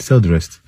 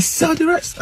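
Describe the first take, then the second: First: Said in the usual way. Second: High, sharp angry repeat of the order; furious raised demand; upset demand. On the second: Retold or imitated. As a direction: snap it at the cheating attendant. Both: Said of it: "I was so upset".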